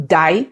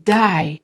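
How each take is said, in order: First: "די" said firmly as stop, enough; firm, commanding "די"; stop-command intonation. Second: "די" drawn out as a stunned no way; long, disbelieving "די"; disbelieving intonation. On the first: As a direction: say "די" as an order to stop. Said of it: "It is not". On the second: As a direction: stretch "די" in disbelief, not as a command. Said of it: "Pay attention to my intonation". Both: Shown as a demonstration.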